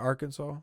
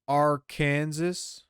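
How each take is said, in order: First: Stress on the first syllable, final s silent. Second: Stress on the second syllable, final s sounded. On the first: The speaker calls it right. "instead of" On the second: The speaker calls it wrong. "the pronunciation with the accent on the second syllable with the sound of the A in man and the sounding of the terminal S"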